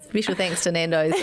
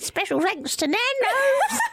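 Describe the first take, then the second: First: It is said in the speaker's normal voice. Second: It is said in a put-on old crone voice.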